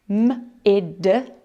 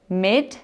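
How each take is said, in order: First: M-id with m held apart from id; segmented syllable. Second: Mid said as one smooth blended syllable. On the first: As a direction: break M-id into m, then id. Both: Shown as a demonstration. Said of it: "Let's have a look together".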